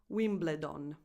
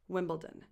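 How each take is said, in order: First: It is said with an Italian pronunciation. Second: It is said with an English pronunciation. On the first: The speaker calls it wrong. "Not Wimbledon" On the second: The speaker calls it right. "this is pronounced Wimbledon"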